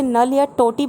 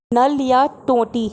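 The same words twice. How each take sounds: First: Said in the usual way. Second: Spelled out slowly, word by word; teacher announcing the new word slowly; slow headword. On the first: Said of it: "Hindi में जिसे नल या टोटी बोलते हैं". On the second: Shown as a demonstration. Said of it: "next है".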